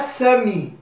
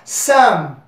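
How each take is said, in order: First: The word ends with an added 'ee' vowel sound. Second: The word ends on the consonant, no final vowel. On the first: The speaker calls it wrong. "não é Sami" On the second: The speaker calls it right. "Então seria Sam"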